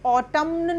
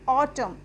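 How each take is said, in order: First: The final n sound is pronounced. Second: The final n sound is silent. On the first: The speaker calls it wrong. "ऑटम्न नहीं पढ़ेंगे" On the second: The speaker calls it right. "एन का छोड़ देते हैं, तो इसको हम पढ़ेंगे ऑटम"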